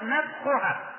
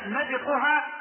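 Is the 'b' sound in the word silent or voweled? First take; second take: silent; voweled. First: The b has no vowel after it. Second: The b is followed by an i vowel. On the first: "ويجوز بالتسكين" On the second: "يجوز بالكسر"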